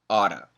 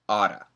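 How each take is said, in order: First: A quick flap T replaces the two Ts. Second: The same.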